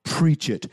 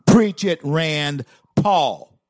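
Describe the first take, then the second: First: Said in the usual way. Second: High, loud preach-it shout; big rallying cry of approval; shouted cheer. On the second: Real, not acted. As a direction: yell it out like a fired-up fan. Cheering on a speech clip.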